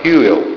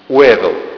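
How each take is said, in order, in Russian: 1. Фамилия произносится по-английски. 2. Фамилия произносится по-русски. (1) "если его произносить правильно, это будет примерно так" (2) "по-русски он писался Уэвелл. Это не имеет никакого отношения к тому, как он звучит"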